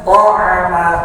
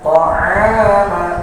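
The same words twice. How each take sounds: First: The a-vowel is kept short. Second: The a-vowel is drawn out long. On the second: "maka diayunkan"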